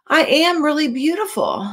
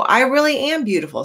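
First: Higher voice, wrong word order; misread line. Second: Higher voice, fixed word order; corrected line. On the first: Reading Rainbow Fish's line, then correcting herself. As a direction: slip the words around. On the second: Reader correcting Rainbow Fish's line for the children. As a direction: read it right this time. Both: Acted. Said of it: "Or no".

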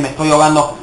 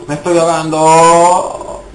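First: Said in the usual way. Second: Panic. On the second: Real, not acted.

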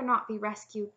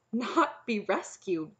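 First: Said in the usual way. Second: Slow, louder puzzled echo. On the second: A narrator's reading. Knight echoing the princess's refusal, puzzled. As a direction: repeat it slowly as a baffled question. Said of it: "The knight's puzzled look deepened".

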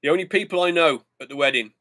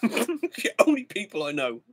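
First: Said in the usual way. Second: Slow, leaning hard on "only"; stress on only. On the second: Shown as a demonstration. Repeating it to viewers, stressing "only" slowly. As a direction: drag out "only" with weight.

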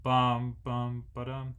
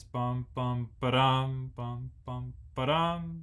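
First: Even beats, no accent on three; flat rhythm, bum bum ba-dum unstressed; not this accent. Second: Ba-dum punched on the third beat; bum, bum, BA-dum, the third beat leaned on; accent on beat three. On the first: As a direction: sing it evenly bum bum ba-dum. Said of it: "So it's not". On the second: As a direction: sing it with the weight on ba-dum. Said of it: "Everybody plays more emphasized the third beat". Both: Shown as a demonstration.

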